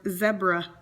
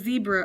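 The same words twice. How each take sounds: First: It is said in a British accent. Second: It is said in an American accent.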